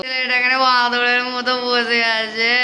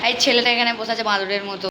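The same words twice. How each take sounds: First: Slow, drawn-out teasing singsong. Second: Said in the usual way. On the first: Shown as a demonstration. Teasing the boy sitting beside her, slow and singsong. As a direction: stretch it out to tease him. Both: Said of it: "teasing the boy sitting there".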